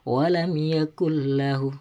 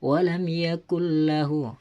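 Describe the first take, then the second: Both takes have the same delivery.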